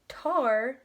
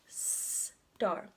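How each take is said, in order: First: The word starts without a hissing s sound. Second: The word starts with a long hissing s sound. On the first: The speaker calls it wrong. "I didn't hear your long sound, I didn't hear your hissing or snake sound" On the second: The speaker calls it right. "Make sure that you're using your long sound first"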